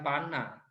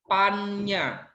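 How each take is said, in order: First: The middle consonant is a plain n. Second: The middle consonant is a doubled nny. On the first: The speaker calls it wrong. "Ini bacanya bukan pana" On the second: The speaker calls it right. "membacanya adalah pannya"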